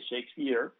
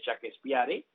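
First: The name is said with English sounds. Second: The name is said with Spanish sounds. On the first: "en vez de Shakespeare" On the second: "si tú no sabes inglés, tú puedes decir perfectamente Shakespeare"

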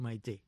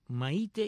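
First: The stress is on the third-to-last syllable. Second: The stress is on the last syllable. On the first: "y esdrújulas"

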